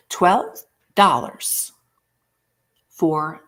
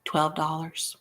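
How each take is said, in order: First: Twelve dollars drawn out slowly and louder, falling; dramatic price reveal. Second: Said in the usual way. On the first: Shown as a demonstration. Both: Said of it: "you better just go, "Ee!" when I say this".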